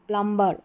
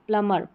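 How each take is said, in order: First: A b sound is pronounced after the m. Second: No b sound is pronounced after the m. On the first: The speaker calls it wrong. "प्लम्बर ऐसे नहीं बोलेंगे" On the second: The speaker calls it right. "इसका correct pronunciation होता है, यहाँ पर बी silent रखेंगे"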